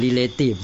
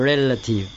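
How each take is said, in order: First: Relative misread as "ree-LAY-tive"; อ่านผิด. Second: Relative said "REL-a-tive", stress first; short unstressed middle in relative, REL up front; อ่านถูก. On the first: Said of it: "เราไม่รู้ เราก็อ่าน relation เราก็อ่าน relative สิ". (อ่าน relative ผิดเป็น "รีเลทีฟ") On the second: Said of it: "เปล่า ไม่ใช่". (อ่าน relative เป็น "เร็ลละทิฟ" เน้นพยางค์แรก) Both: Shown as a demonstration.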